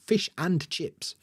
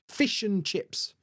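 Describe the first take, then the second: First: The word 'and' is full and strong. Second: The word 'and' is reduced and weak. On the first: The speaker calls it wrong. "We're not saying" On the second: The speaker calls it right. "heard a native speaker say"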